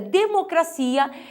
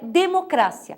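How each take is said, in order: First: It is said with Portuguese word stress. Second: It is said with Spanish word stress. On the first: "que em português é democracia" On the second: "em espanhol é democrácia"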